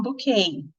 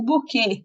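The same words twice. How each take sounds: First: Bouquet said the English way, /boʊˈkeɪ/. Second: Buquê with Portuguese sounds, bu-KÊ. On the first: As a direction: say bouquet as English speakers do, ending in KAY. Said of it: "eles falam bouquet". (bouquet com pronúncia inglesa, final kei) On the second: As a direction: say buquê the Brazilian way, stress on KÊ. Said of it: "o buquê que a gente fala". (buquê com pronúncia brasileira, tônica no quê) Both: Shown as a demonstration.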